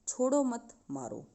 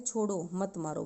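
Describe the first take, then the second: First: The pause comes right after 'मत'. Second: The pause comes right after 'छोड़ो'.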